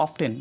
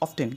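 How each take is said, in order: No difference in how they are said.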